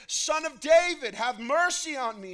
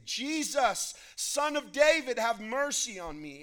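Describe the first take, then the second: First: Even louder, high-pitched desperate plea; crying out all the more. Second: High, loud plea for mercy; crying out. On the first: Rebuked beggar calls harder to Jesus, crying out all the more. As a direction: shout it out, refusing to be silenced. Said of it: "he cried out all the more". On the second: Blind beggar calls to Jesus passing by, crying out. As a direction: call out loudly to be heard over a crowd. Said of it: "he began to cry out and say". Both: A narrator's reading.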